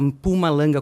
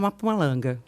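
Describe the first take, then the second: First: The name begins with a closed M sound. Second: The name begins with a vowel before the M. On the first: "teoricamente, né, se fala Mpumalanga com o M fechado" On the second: "que é o jeito mais gostoso, eu acho, de falar"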